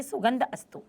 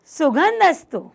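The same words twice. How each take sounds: First: सुगंध अस्तु read as two separate words; split into two words. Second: Said in the usual way. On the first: Shown as a demonstration. Teacher shows students how to split the words. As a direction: break सुगंध from अस्तु with a clear gap. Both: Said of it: "इस तरीके से उसको तोड़ के पढ़िए".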